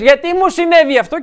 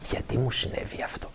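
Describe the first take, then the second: First: The question sounds defiant and accusing, not awaiting answers. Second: The question sounds humble and open, awaiting an answer. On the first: The asker is protesting rather than seeking an answer. The speaker calls it wrong. "και αυτό είναι στάση ανταρσίας" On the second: The asker genuinely wants to hear the answer. The speaker calls it right. "και να περιμένεις να ακούσεις"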